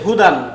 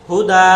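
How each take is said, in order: First: The word ends with a final n sound. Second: The word ends on a lengthened a vowel. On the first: The reading continues without stopping. "এখানে কি আছে? হুদান" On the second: The reading stops at this word. "যদি আমরা ওয়াকফ করি তাহলে কি হবে?"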